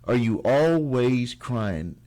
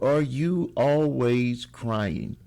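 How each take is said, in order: First: "always" leaned on, slow falling question; stress on ALWAYS. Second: "you" leaned on, slow falling question; stress on YOU. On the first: Repeating the question to viewers, stressing "always". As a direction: repeat it slowly, now hitting "always". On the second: Opening the video to viewers, slow question stressing "you". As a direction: ask it slowly, hitting "you". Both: Shown as a demonstration. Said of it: "slow opening question".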